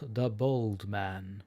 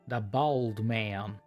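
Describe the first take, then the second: First: It is said in a non-American accent. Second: It is said in a casual American accent. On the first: The speaker calls it wrong. "the way I say it, it doesn't convey what I try to say" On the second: The speaker calls it right. "My finest uh, casual American"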